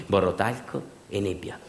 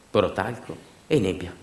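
No difference in how they are said.

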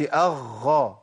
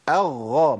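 First: أغى with breath running through the double gh; leaking breath. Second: أغى with a long, fully voiced double gh; doubled ghayn. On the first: Teacher letting students hear the breath, deliberately mispronounced. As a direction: let the gh in أغى turn breathy, toward kh. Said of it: "كده سامعين النفس؟". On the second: Teacher showing the doubled letter, carefully articulated. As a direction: press and hold the gh in أغى without breath. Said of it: "ما أقولش أغى". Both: Shown as a demonstration.

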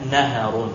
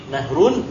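First: "naharun" with an a between h and r; naharun with middle vowel. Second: "nahrun" with h running straight into r; nahrun without middle vowel. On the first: Teacher explaining variant readings, "naharun" in three syllables. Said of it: "bisa dibaca naharun". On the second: Teacher explaining variant readings, "nahrun" in two syllables. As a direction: pronounce "nahrun" as two syllables, nah-run. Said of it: "bisa dibaca nahrun". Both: Shown as a demonstration.

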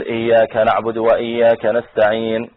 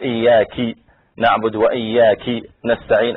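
First: Said in the usual way. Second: إياك with a kasra on the kaf, "iyyaki"; slow demo of إياك misread as "iyyaki"; mistaken recitation. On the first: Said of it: "بدل ما يقول". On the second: Shown as a demonstration. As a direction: recite إياك wrongly as feminine "iyyaki", both times. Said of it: "هذا غير المعنى".

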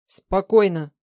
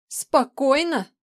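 First: Loud, firm command at usual pitch; steady her with a forceful word; tense. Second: High, loud, slow echo; outraged yell. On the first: Man calming a panicking partner, tense and firm. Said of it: "напряжённо произнёс Влад". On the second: Woman turning on him, yelling in outrage. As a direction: throw the word back, yelling in disbelief. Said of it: "проорала тень". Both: A narrator's reading.

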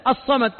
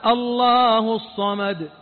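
First: Said in the usual way. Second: "الله الصمد" stretched very slowly, each syllable held; drawn-out recitation. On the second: Shown as a demonstration. Preacher slowly savoring "الله الصمد". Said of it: "إيش معنى الصمد؟".

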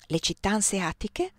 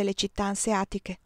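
First: "Le città anseatiche?" with a rising, questioning tune on "anseatiche"; "anseatiche" rising in bewilderment; puzzled question. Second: Said in the usual way. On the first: Acted. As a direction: echo "Le città anseatiche?" back, lifting at the end. She echoes his words puzzled.

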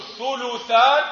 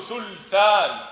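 First: ثلثان as thu-lu-than, u after l; damma on lam. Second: ثلثان as thul-than, no vowel after l; sukun on lam. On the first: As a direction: slowly give ثلثان three syllables, thuluthan. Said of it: "إما ضم اللام". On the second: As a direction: slowly close the first syllable of ثلثان on l. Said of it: "أو إسكانها". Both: Shown as a demonstration.

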